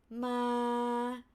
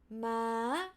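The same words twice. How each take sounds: First: The pitch stays level in the middle. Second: The pitch holds mid, then jumps up high. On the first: "flat tone" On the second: "mid to high"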